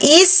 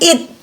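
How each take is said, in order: First: The word ends with a hissing s sound. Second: The word ends with a stopped t sound. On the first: "bukan is" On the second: "bukan it"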